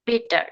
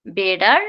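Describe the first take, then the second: First: Better with a clear T; crisp T in the middle of better; true T, wrong version. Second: Better as "beda", T like D; flap T. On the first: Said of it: "not better". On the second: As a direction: tap the T in better. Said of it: "It will be". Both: Shown as a demonstration.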